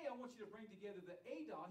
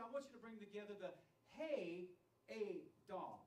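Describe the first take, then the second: First: Said in the usual way. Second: "Hey" held out and loud, then a break before "Adah"; stress on HEY. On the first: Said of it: "But he didn't say". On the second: Shown as a demonstration. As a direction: punch and separate "Hey" from "Adah". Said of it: "He said".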